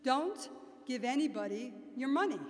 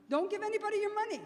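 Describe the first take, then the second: First: Loud, deliberate Queens accent. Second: High, loud, rapid-fire Queens accent. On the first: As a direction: lay down the warning in broad Queens. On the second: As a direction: belt it out fast in Queens dialect. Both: Shown as a demonstration. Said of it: "say it in my best Queens accent".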